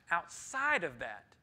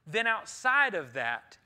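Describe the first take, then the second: First: Said in the usual way. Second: "outside" stressed loud and drawn out; stressed repeat. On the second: Shown as a demonstration. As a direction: lean hard on "outside", slowly.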